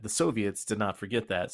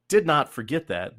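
First: Said in the usual way. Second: Loud, punchy "did not forget that", hitting "did" hard; emphatic stress. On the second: Real, not acted. Telling a friend Russia never forgot, with heavy stress on "did". Russia remembering German atrocities.

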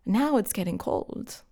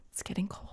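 First: Said in the usual way. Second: Breathy whispered aside, much softer. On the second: Shown as a demonstration. Repeating the cold-dinner line as a whisper. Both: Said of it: "repeats it whispered".

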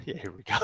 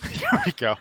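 First: Said in the usual way. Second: High squeaky dinosaur call; a squeaky little roar attempt; tiny squeaky trying to roar. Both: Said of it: "so it's something like this?".

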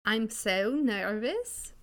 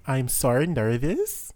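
First: Slow, sing-song mock Swedish; nervous stretched out Swedish-style; a clumsy Swedish lilt on I'm so nervous; accidental Swedish accent. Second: Louder mock accent with a rising nervous; Swedish-ish demo. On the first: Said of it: "God, that was Swedish". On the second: Shown as a demonstration. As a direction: show how it should sound. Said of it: "that would be".

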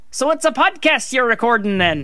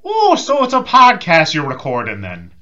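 First: Understated Irish lilt; light put-on Irish accent meant as Scottish; Irish accent passed off as Scottish. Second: Loud, high, drawn-out Irish lilt; hammed-up Irish accent. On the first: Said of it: "do you want me to do an Irish accent". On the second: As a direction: put on a big, slow Irish brogue. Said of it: "I can just do Irish".

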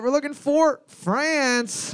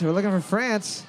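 First: Host reveal to the teams; drawn-out host reveal. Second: Said in the usual way. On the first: Shown as a demonstration. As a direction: stretch it out slow and high like a quiz host. Game host announces the answer.

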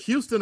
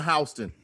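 First: Houston with a HEW first syllable; pronounced HEW-ston. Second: Houston with a HOW first syllable; pronounced HOW-ston. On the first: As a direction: say Houston as HYOO-stən. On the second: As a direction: say Houston as HOW-stən, like house. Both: Shown as a demonstration. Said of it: "How do you say it?".

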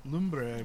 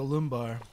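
First: "Lumbre" said slowly in Spanish, LOOM-breh; "Lumbre" carefully corrected, ending in -breh. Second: "lumbar" said like the English back word, LUM-bar; "lumbar" read as English, ending in -bar. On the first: Shown as a demonstration. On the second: Real, not acted. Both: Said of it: "I'm sorry, it's lumbre".

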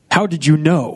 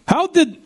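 First: Said in the usual way. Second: Put-on "How did" pitched high in a phony Russian accent; cartoon Russian accent on "How did"; bad Russian accent. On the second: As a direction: slip into the fake Russian accent one last time. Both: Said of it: "that's the worst Russian accent I've ever heard".

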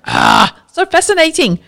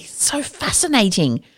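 First: High, thrilled exclamation; excited. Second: Soft, slow, hushed amazement; quiet awe. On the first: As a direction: gush with delight. Excited reaction after the example. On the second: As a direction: breathe it out in wonder. Awed reaction to the case. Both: Real, not acted.

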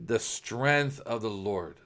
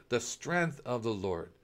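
First: Slow, steady faith declaration; calm declaration. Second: Slow, softer repeat, almost to oneself; soft echo. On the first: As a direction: say it slowly, with settled trust. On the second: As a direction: let it fall away into a hushed echo. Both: Pretend. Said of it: "no, you will say".

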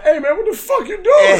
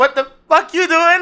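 First: High-pitched, indignant mock yell; retold angry outburst. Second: High, broken-up comic outburst; mock Michael J. Fox. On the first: Michael J. Fox catching Larry drawing, angry shout. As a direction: blurt it out in outraged disbelief. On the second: Listener redoing Michael J. Fox's reaction, mock outburst. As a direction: exaggerate the indignant cry for laughs. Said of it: "Or more like".

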